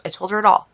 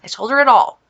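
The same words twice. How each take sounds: First: Quick throwaway mumble, I told her it all; rushed plain. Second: Louder repeat, stressing "it all"; emphatic repeat. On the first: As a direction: rattle it off fast and flat. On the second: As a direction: land "I told her it all" firmly and louder. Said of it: "And blah, I, t-, I told her it all". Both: Real, not acted.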